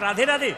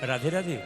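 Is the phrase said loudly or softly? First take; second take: loudly; softly. First: It is said loudly and forcefully. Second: It is said very softly and quietly. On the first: The caller had good news. "উনি জোরে জোরে বললেন" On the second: The speaker feared bad news. "আমি খুব আস্তে বললাম"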